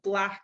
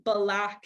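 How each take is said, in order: First: The b and l are joined with no vowel. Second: An extra vowel is inserted between b and l. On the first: "instead of" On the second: "adding a vowel sound into the middle of a word"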